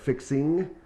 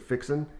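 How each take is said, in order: First: The final g sound is pronounced. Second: The final g sound is dropped. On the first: "instead of" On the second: "we tend to elide the hard G at the end of our words"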